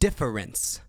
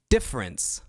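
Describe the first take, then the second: First: Every sound of the word is sharply articulated. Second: The word is said in a normal, relaxed way. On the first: "Enunciation would be difference" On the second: "I think that's the pronunciation of difference"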